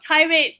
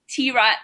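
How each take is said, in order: First: It is said like the word 'tirade'. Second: It is said as 'tee' plus 'rad'. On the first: The speaker calls it wrong. "not tirade" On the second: The speaker calls it right. "it's pronounced as T-Rad"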